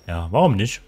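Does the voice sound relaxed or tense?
tense. It is said in a tense, strained tone.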